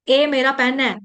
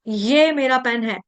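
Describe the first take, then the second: First: The first word begins with a plain vowel. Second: The first word begins with a 'y' sound. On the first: The speaker calls it wrong. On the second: The speaker calls it right.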